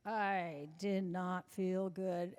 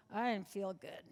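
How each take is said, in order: First: "did not" split apart, slow and deliberate; slow, emphatic "I did not feel good"; stress on did not. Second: Said in the usual way. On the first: Shown as a demonstration. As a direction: lean on "not", each word spaced out.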